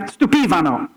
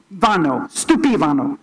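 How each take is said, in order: First: "Stupivano" with stress moved to PI, stu-PI-va-no, Italian style; "Stupivano" fixed, the PI stressed and the rest falling; corrected stress. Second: "stupivano" slowly, stress misplaced on the va, stu-pi-VA-no; "stupivano" with the emphasis landing on the wrong syllable VA. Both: Shown as a demonstration. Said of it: "I had the emphasis on the wrong syllable".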